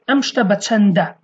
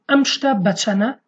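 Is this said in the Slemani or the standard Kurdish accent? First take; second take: standard; Slemani. First: The d sound is pronounced, standard style. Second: The d sound is dropped, Slemani style. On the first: "in Kurdish standard we say amshta bachanda" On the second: "we say amshta bachana in Slemani"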